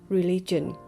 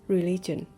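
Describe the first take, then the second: No difference in how they are said.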